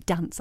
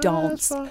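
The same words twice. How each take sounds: First: It is said in a plain, non-posh accent. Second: It is said in a posh accent. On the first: This is how the speaker normally talks. "I'm not posh because I say dance" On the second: This is how the speaker does not talk. "I don't say dance"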